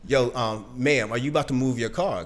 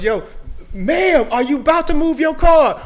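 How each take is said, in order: First: It is said at a normal volume. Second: It is yelled loudly.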